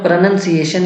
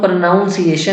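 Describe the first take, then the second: First: The second syllable sounds like 'nun'. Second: The second syllable sounds like 'noun'. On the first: The speaker calls it right. "इसको हमें प्रोनंसिएशन ही कहना होगा" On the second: The speaker calls it wrong. "प्रोनाउंस में देखिए नाउन दिख रहा है... इसको हम प्रोनाउंसिएशन नहीं कह सकते"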